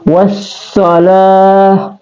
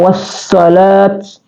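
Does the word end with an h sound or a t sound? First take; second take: h sound; t sound. First: The word ends with an h sound. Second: The word ends with a t sound. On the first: The speaker calls it right. "tapi wassalah ya" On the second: The speaker calls it wrong. "Jadi bukan wassalat ya"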